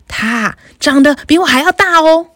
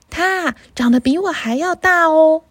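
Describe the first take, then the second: First: Louder, bolder middle goat; 它长得比我还要大哦 said louder with a stress on 大; a bigger goat answering in a bigger voice. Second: Little goat, higher and mild; 它长得比我还要大哦 said gently in a small goat voice; a little goat hinting at a bigger brother; small-voiced little goat. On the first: Acted. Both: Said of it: "用比第一只山羊还要大一点的声音回答".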